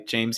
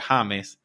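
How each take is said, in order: First: The name starts with an English J sound. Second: The name starts with a breathy H sound. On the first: This is the name he does not use there. "I don't go by James here" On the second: This is the name he uses there. "I go by James"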